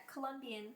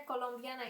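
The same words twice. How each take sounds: First: Said in the usual way. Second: COLOMBIANA with Spanish vowels; Spanish pronunciation of Colombiana; Spanish accent. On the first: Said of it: "or in Spanish". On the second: Real, not acted. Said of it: "said it with a Spanish accent".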